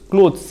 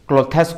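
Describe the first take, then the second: First: The word is said as one syllable. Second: The ending is said as an extra syllable. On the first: The speaker calls it right. "आम क्लोथ्स pronounce करवा कथा" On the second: The speaker calls it wrong. "क्लोथेस कहीदू जोटा कि आमर pronunciation रे बहुत बड़ mistake"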